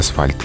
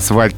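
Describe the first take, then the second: First: The consonant after s is a voiceless f. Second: The consonant after s is a voiced v. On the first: The speaker calls it right. "Исконно там был звук Ф, поэтому все-таки асфальт" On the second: The speaker calls it wrong. "произношение асфальт не рекомендуется, потому что звуку В там просто неоткуда взяться"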